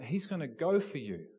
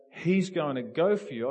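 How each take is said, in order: First: Said in the usual way. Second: Louder, urgent warning. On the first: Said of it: "and I said to this person". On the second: Retold or imitated. Warning his colleague again as the manager charges, urgent and louder. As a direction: press the warning home, louder. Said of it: "I'm going".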